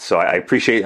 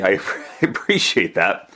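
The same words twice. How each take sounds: First: Said in the usual way. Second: A real laugh breaks into the thanks, slower; sheepish laugh while saying appreciate. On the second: Real, not acted. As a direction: chuckle through the thank-you. Thanking listeners, laughs mid-line.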